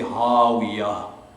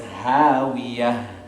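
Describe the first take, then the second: First: The h sound is heavy and full-mouthed. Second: The h sound is light and thin. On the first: The speaker calls it wrong. "if it were to be thick, we would say hawiyah" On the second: The speaker calls it right. "And so it's hawiyah"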